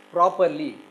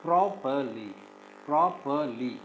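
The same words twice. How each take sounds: First: "properly" with a loud, punched first syllable; "properly", weight on PRO; stress on first syllable. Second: "properly" broken into three separate syllables; measured "properly", each syllable set apart. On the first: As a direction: hit the start of "properly" hard, then fall away. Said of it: "the first syllable is stressed". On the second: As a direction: say "properly" as pro, per, ly with gaps. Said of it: "we divide this into three syllables". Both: Shown as a demonstration.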